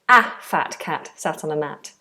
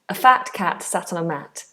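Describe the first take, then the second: First: The word 'a' has a full, strong vowel. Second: The word 'a' has a weak schwa vowel. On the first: "It would sound odd if you said" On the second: "So we make it weak and it becomes a"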